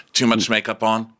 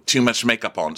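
First: "Too much makeup on?" asked as a question; questioning tune. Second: "Too much makeup on." stated with a falling end; statement, no question. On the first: Bride checks on her makeup with groom, questioning tune. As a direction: lift "on" as if asking whether it's too much. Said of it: "I added a question mark". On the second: Correcting the misread question to groom, falling statement tune. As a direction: let "on" drop, telling rather than asking. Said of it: "I added a question mark in the beginning". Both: Retold or imitated.

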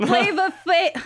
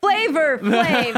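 First: Flava ending in an open "uh", no R; high, effortful "Flava Flav" with the R dropped; Flava without R. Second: Flavor said slowly with a full final R; drawn-out, over-proper "Flavor Flav" with the R. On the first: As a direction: drop the R in Flava, pitched high. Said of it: "it's hard to speak this language sometimes". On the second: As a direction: carefully sound the R ending Flavor. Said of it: "isn't it [name]?". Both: Shown as a demonstration.

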